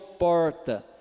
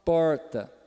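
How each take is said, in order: The two takes are said the same way.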